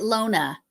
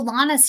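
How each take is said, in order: First: The first vowel sounds like 'oh'. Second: The first vowel sounds like 'ah'. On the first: "The only reason I said Lona was because maybe with the O" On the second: "Lana's here"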